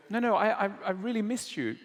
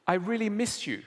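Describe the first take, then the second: First: Pressing the point, higher and faster; insistent wife. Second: Lightly voiced wife, a little higher; wife on the phone tells husband she misses him, mildly wistful; wife missing him. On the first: Retold or imitated. Wife repeats to distant husband, a touch more insistent. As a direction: say it again so he finally hears you. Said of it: "And the wife go, will go". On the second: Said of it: "the wife says".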